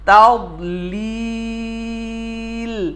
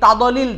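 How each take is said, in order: First: The middle consonant is held firmly without bouncing. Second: The middle consonant is released with a bounce. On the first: The speaker calls it right. "সঠিক হলো তাও লিল" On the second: The speaker calls it wrong. "এটা ভুল"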